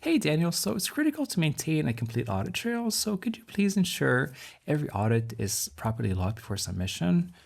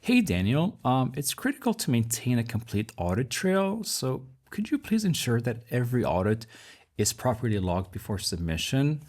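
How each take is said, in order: First: It is said in a softer, relaxed tone. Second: It is said in a serious, intense tone.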